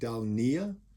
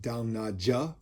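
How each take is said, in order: First: The J in the name is not sounded. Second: The J in the name is sounded. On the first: "I don't know how it can be Dalnia, but it's N A J A" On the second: "pronouncing the J"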